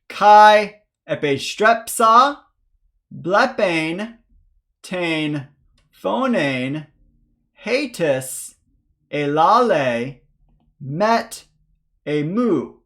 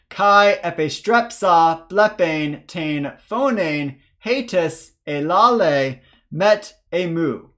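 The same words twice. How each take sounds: First: The sentence is read at a slow pace. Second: The sentence is read at a faster pace. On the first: "a first slow reading" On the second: "This time a little bit faster"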